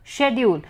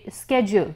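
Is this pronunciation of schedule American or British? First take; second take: British; American. First: It is said with a British pronunciation. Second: It is said with an American pronunciation. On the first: "a person belonging to England would say" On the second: "an American would say"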